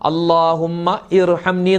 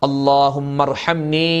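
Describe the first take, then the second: First: The two words are kept apart. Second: The two words are run together. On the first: This is how it is written. The speaker calls it wrong. "നമ്മൾ എഴുതുമ്പോൾ അല്ലാഹുമ്മ ഇർഹംനി എന്ന് എഴുതും" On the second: This is how it should be spoken. The speaker calls it right. "പറയുമ്പോൾ കൂട്ടി പറയലാണ് വേണ്ടത്"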